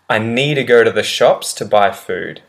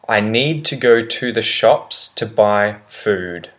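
First: It is said fast, with need to reduced. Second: Each word is pronounced separately and clearly. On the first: "how I would say it naturally when I speak at full speed" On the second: "I'll pronounce the sentence well the first time"

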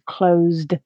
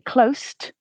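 First: The final consonant is said with voicing. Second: The final consonant is said without voicing.

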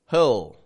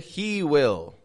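First: The words are merged into one syllable. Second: Both words are said in full.

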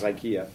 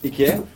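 First: It is pronounced the American way. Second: It is pronounced the German way. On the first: This is how people locally say it. "everyone here says IKEA" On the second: This is how it was said in Germany. "I lived in Germany, and that's the way we pronounced it there"

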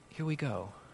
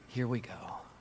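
First: It sounds focused and determined. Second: It sounds weary and resigned.

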